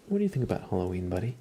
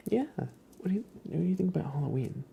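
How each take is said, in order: First: Said in the usual way. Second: Much higher, fast whispered question to the cat; high, quick cooing question; high pet talk. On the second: Real, not acted. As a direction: ask the cat again, lifted and cooing. Asking the cat again.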